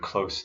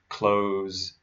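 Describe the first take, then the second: First: The word ends with a hissing s sound. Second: The word ends with a buzzing z sound. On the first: It is the adjective meaning near. "close the adjective" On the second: It is the verb meaning to shut. "Close the verb"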